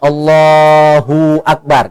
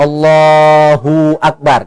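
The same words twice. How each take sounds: First: The hu is drawn out before akbar. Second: The same.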